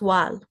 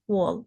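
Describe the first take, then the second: First: The vowel sounds like a short 'a'. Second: The vowel sounds like an 'o'. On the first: The speaker calls it wrong. "not wall" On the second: The speaker calls it right. "you pronounce it as O L"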